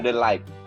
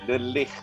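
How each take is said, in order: First: It sounds like the English words 'the light'. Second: It is said with a Dutch pronunciation. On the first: The speaker calls it wrong. "Bukan the light" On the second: The speaker calls it right.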